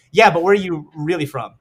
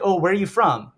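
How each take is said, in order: First: "really" stressed, higher-pitched follow-up; pressing question. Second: Light, higher-pitched small-talk question; casual curious question. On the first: Stranger doubting his hometown answer, pressing on "really". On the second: Stranger asking where he is from, casually curious. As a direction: ask it as breezy small talk. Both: Retold or imitated.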